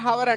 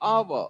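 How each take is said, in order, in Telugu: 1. ఈ పదం h శబ్దంతో మొదలవుతుంది. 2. ఈ పదం అచ్చు శబ్దంతో మొదలవుతుంది. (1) "హవర్ హవర్ అంటారా అండి? నో" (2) "ఇది వదిలేసి పలకాలి"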